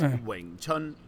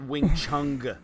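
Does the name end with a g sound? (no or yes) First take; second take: no; yes. First: The name ends without a g sound. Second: The name ends with a g sound. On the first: The speaker calls it right. "It's Wing Chun" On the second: The speaker calls it wrong. "there's no G sound at the end. It's not Wing Chung"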